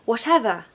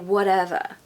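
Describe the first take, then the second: First: It is said in a British accent. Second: It is said in an American accent.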